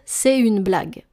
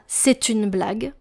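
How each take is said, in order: First: The T of c'est is silent before une. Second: The T of c'est is linked to une. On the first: This is how it sounds in everyday speech. The speaker calls it right. "en français parlé, on va dire" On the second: This is not how people say it in everyday speech. The speaker calls it wrong. "On ne dit pas"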